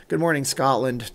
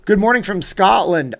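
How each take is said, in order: First: Said in the usual way. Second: Loud, high, bad Scottish accent; Shrek. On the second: Streamer greeting a viewer from Scotland, in bad Scottish accent. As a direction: boom out a hammed-up Scottish greeting. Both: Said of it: "my worst Shrek impression yet".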